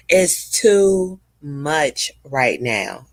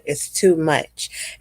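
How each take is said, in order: First: Each word drawn out slowly to press the point; slow emphasis. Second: Slow emphasis. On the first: To her viewers, insisting slowly that it's too much. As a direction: lean on TOO and stretch it slowly. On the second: To her viewers, a slow firm repeat. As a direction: repeat it slowly, letting it sink in. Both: Real, not acted.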